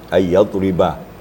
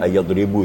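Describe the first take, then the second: First: The word ends with an 'a' vowel. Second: The word ends with a 'u' vowel. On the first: The speaker calls it right. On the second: The speaker calls it wrong. "kedengaran di sini ayyadribu tadi"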